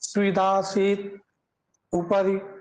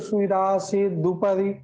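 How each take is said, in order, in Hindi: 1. दोनों शब्द अलग-अलग शब्दों की तरह बोले गए हैं। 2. दोनों शब्द एक साथ मिलाकर बोले गए हैं।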